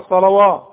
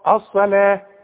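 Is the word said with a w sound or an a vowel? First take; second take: w sound; a vowel. First: The word is said with a w sound. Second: The word is said with a long a vowel. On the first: The speaker calls it wrong. "اوعى تقول لي الصلوات" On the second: The speaker calls it right. "والواو عليها الف علشان تحولها لي الى الف"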